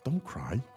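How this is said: It is said softly, with warmth and concern. The speaker shows concern and comfort.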